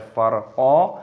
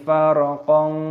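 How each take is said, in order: First: The word ends on a long open vowel. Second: The word ends with an n sound. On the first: The reader stops after this word. "Ketika kita berhenti maka dibaca farqa" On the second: The reader joins it to the next verse. "kalau kita gandengkan dengan ayat yang kelima"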